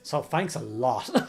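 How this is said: It is said in a mock annoyed tone.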